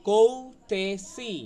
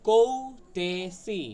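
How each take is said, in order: The two takes are said the same way.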